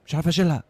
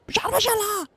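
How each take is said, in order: First: Said in the usual way. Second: مش عارف أشيلها said much higher, falling on أشيلها; squeaky high complaint. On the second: Pretend. Third try at removing the item, comic high-pitched whine. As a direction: squeak it out in mock frustration. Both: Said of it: "repeated in rising voices".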